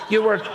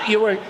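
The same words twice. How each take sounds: The two takes are said the same way.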